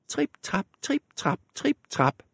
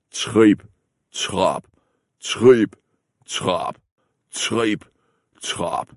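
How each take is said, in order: First: Small, high and soft steps; soft little trip trap of the smallest goat; light high tripping. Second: Slow, spaced, heavy steps; big goat stomping slowly over the bridge. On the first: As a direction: tiptoe the words like a tiny goat. Smallest goat crosses the bridge. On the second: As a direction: stamp each word like big hooves. Biggest goat stomps across. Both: Acted.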